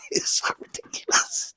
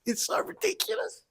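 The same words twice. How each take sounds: First: "It's so ridiculous" breathed out in a laughing whisper. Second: "It's so ridiculous" in a much higher, squeaky laughing voice; squealing laugh. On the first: Cracking up at the online fight drama, laughing whisper. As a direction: wheeze it out, helpless with laughter. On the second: Cracking up at the online fight drama, high squealing laugh. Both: Real, not acted.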